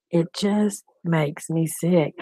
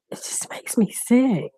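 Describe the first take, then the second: First: Said in the usual way. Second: Hushed, breathy "sick" trailing off; whispered disgust. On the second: Real, not acted. To her viewers, a disgusted whisper. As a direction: whisper it like you can't stomach it. Disgusted aside about an arrest.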